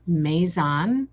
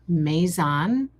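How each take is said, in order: First: It is said the French way, may-ZON. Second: It is said the French way, may-ZON.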